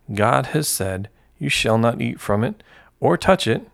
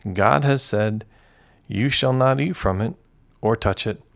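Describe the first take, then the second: No difference in how they are said.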